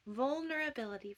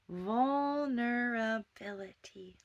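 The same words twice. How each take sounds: First: Said in the usual way. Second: "Vulnerability" breathed slowly with a rise; slow whisper. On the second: Shown as a demonstration. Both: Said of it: "I'll say it a little slower".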